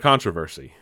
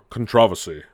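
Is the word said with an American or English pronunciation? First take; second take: American; English. First: The word is said with an American pronunciation. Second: The word is said with an English pronunciation.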